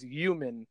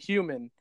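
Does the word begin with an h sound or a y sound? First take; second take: y sound; h sound. First: The h is dropped, starting with a y sound. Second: The word begins with a clear h sound. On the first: This is a leftover accent from another language. "My dad says human. ... So he just says you" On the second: This is the usual way to say it. "like you would say human"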